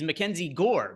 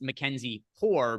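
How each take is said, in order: First: The surname starts with a hard G sound. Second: The surname starts with an H sound. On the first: It treats him as an American. The speaker calls it right. "He's Mackenzie Gore because he's from the United States" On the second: It treats him as a Spanish speaker from the Dominican Republic. The speaker calls it wrong. "it is not pronounced Mackenzie Gore because he is an American"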